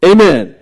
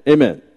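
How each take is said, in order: First: Louder Amen, a call to the congregation; Amen called out for a response. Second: Said in the usual way. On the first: Real, not acted. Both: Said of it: "It's true".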